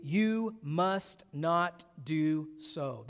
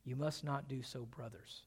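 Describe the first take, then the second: First: YOU MUST NOT DO SO spread out very slowly, each word weighted; "You must not do so", drawn out word by word; emphatic. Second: Soft, tender "You must not do so, brothers"; gentle appeal, "brothers" dropped low and very quiet; loving. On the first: David takes a stand before his mightiest men, emphatic. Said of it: "That is emphatic". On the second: David addresses men he loves as brothers, tender. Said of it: "David loves these men". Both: Retold or imitated.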